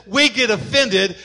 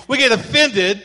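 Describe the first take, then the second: No difference in how they are said.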